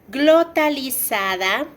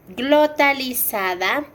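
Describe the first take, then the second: No difference in how they are said.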